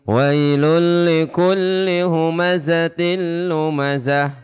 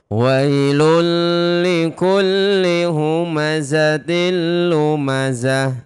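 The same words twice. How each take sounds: First: The verse is recited at a fairly quick pace. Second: The verse is recited at a slow pace. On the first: "Contoh yang agak cepat tapi tetap pakai tajwid" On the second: "Kalau pelan tapi pakai tajwid, boleh"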